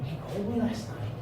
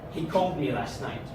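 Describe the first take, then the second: First: It sounds surprised. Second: It sounds extremely annoyed. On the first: The speaker did not expect the news. "as if I'm surprised" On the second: The speaker is irritated by the news. "like I'm extremely annoyed with this information"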